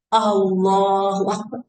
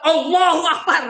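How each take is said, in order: First: It is said in a humble, lowered manner. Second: It is said in a proud, boastful manner. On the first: The speaker feels small before God. The speaker calls it right. "harus dengan meru" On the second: The speaker feels big. The speaker calls it wrong. "bukan Allahu Akbar gitu ya"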